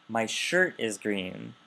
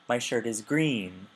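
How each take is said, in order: First: The stress falls on the word shirt. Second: The stress falls on the word green. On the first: It answers which item is green. "Your what is green?" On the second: It answers what color the shirt is. "Your shirt is what color?"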